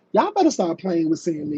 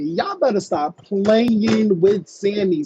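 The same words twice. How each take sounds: First: Brisk, fast warning; quick warning. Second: Slow warning with "playing" stretched out; emphatic warning. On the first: Host warning the girls about Sammy, quick warning. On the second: Host warning the girls about Sammy, "playing" drawn out emphatically. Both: Real, not acted.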